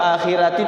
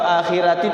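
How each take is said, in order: First: The r is pronounced light and thin. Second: The r is pronounced light and thin.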